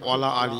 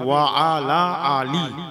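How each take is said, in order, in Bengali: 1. 'wa' ও 'ala' মিশে একটি শব্দ হয়, 'wala'। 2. 'wa' ও 'ala' আলাদা শব্দ হিসেবে বলা হয়। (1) "আমরা বলছি ওয়ালা আলী" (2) "অ্যাকচুয়ালি হবে ওয়া আলা আলী"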